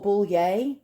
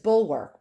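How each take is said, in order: First: It is said with a fancy, French-style ending. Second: It is said plainly, without the fancy ending. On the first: The speaker calls it wrong. "I pronounce it bullier because I try to get fancy" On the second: The speaker calls it right. "Actually, it's bulwark"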